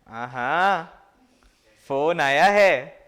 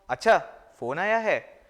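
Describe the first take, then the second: First: It is said in a mocking, teasing tone. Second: It is said in a plain, neutral tone.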